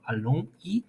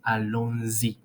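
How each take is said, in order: First: The words are separate with no z sound. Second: A z sound links allons to y. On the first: The speaker calls it wrong. "instead of allons y" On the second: The speaker calls it right. "we're going to pronounce allons-y"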